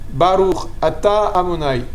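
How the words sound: Each word is clearly separated from the next. The speaker calls it right. "il faut bien découper chaque mot"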